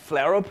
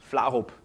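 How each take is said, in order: First: The name is said the American way. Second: The name is said the Danish way.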